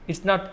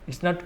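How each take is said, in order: Both takes have the same delivery.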